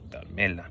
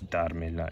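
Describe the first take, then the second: First: The stress is on the second syllable. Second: The stress is on the first syllable. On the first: The speaker calls it wrong. "it's not darmela" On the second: The speaker calls it right. "we're still not changing the word stress. It's darmela"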